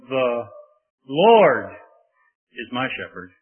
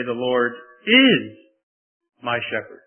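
First: "Lord" punched loud, the rest falling away; stress on LORD. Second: "is" drawn out slowly and leaned on; stress on IS. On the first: Preacher demonstrating emphasis to the church, Lord stressed. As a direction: hit the word Lord hard. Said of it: "put an emphasis on almost every word". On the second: Preacher stressing the present tense to the congregation, is stressed. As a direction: dwell on the word is. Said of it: "Present tense. Present continuous". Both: Shown as a demonstration.

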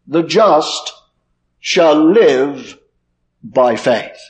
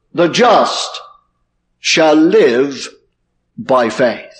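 First: The just shall live by faith, with "live" drawn out and leaned on; stress on live. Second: The just shall live by faith, with "just" leaned on; stress on just. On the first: Preacher showing the congregation the stress on "live". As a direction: make "live" the heart of the line. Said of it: "emphasizing the word live". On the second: Preacher quoting scripture to his congregation, stressing "just". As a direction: land the weight on "just". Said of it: "places the emphasis on the word just". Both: Shown as a demonstration.

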